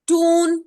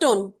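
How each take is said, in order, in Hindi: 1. u स्वर लंबा है। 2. u स्वर छोटा है। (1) "ऊ is always longer." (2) "it's not टून।"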